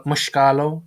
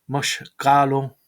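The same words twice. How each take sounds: First: Said in the usual way. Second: Mushkalo said slowly, syllable by syllable; careful slow retry. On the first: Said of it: "I find very hard to pronounce". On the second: Shown as a demonstration. Learner retries a word he finds hard, slowly and carefully. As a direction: stretch out Mushkalo carefully, each syllable clear.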